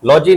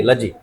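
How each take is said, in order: First: लॉजी with a full open "aw" first vowel; mispronunciation demo. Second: लजी with a short, reduced "uh" first vowel; corrected pronunciation. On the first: Teacher shows students the rejected reading, लॉजी said "law-jee". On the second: Teacher corrects students' reading, लजी said lower as "luh-jee". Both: Shown as a demonstration. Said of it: "लॉजी नहीं".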